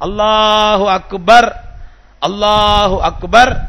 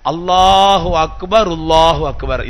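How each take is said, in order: First: The phrases are said apart with no linking sound. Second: The phrases are linked with an 'r' sound between. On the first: The speaker calls it wrong. "அப்படின்னு சொல்றது தப்பு" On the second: The speaker calls it right. "சொல்ற முறை அல்லாஹு அக்பர் ருல்லாஹு அக்பர் இதுதான் கரெக்ட்"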